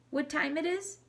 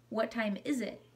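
First: Higher, tentative language-learner voice; learner's mistaken question. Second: Said in the usual way. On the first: A narrator's reading. Mom practices English with dad, higher learner's questioning voice. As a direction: ask it pitched up, like practicing English. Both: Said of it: "Saya corrected her".

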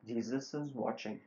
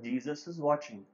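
First: Softer, hushed warning from nowhere; a disembodied voice, low in volume; hushed ghostly warning; quiet eerie voice. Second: The same warning, said firmer; a firmer warning from the dark; louder voice. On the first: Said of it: "again he heard a voice saying". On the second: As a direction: call it out a bit stronger, still eerie. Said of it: "the voice became louder". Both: A narrator's reading.

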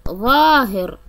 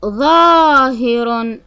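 First: Said in the usual way. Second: ظاهر drawn out slowly, ظ full and heavy; slow emphatic ظ. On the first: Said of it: "طريقة نطق". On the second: Shown as a demonstration. Teacher showing the ظ sound in ظاهر, slow and full. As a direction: stretch ظاهر and press the ظ. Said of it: "طريقة نطق حرف الطاء أو حرف الظاء".

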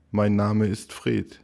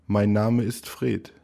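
The two takes are said the same way.

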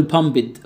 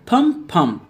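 First: "بامبد" in two syllables, "pam-bid"; mispronounced pumped. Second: Said in the usual way. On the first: Shown as a demonstration. Teacher mimicking a student's mistake, "بامبد" said as "pambid". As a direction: add a vowel before the final d of "بامبد". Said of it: "وهتقول". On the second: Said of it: "وهتقول بامبد".

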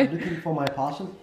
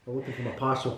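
First: Put-on higher-pitched Blood Diamond accent. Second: Softer attempt at an American accent. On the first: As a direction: try a film-style Blood Diamond accent. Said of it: "Blood Diamond". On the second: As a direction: have a tentative go at sounding American.

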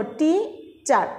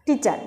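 First: টিচার slowly, in two parts, টি then চার; broken into syllables. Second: Said in the usual way. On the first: Shown as a demonstration. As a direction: break টিচার with a clear gap, টি... চার. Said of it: "দুইটা অংশে আমরা এই পুরাটা word উচ্চারণ করলাম". (টিচার দুই অংশে ভেঙে, টি... চার) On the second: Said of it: "দেখবা যে পুরাটা".

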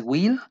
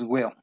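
First: "will" with a tense ee, like "gwil"; wrong Spanish-I vowel. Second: "will" with a small E, between E and I, dark L; short in-between vowel. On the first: Teacher showing the mistake to avoid, "will" with a Spanish ee. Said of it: "Tampoco es una I". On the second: Teacher showing correct will, small lax E in "will". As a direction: relax the vowel of "will" toward a little E, like "weo". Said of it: "Es una E chiquita". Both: Shown as a demonstration.

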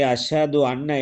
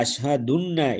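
First: Said in the usual way. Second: அஷ்ஹதுன்ன run together as one word, ash-ha-dunna; run-together mispronunciation. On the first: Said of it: "என்பதைக்கு பதிலாக". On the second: Shown as a demonstration. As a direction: slowly demonstrate அஷ்ஹதுன்ன with the two words merged. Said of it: "என்று சொன்னால்".

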